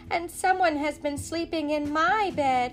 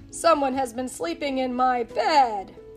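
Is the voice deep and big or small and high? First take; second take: small high; big deep. First: It is said in Baby Bear's tiny voice. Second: It is said in Papa Bear's big voice.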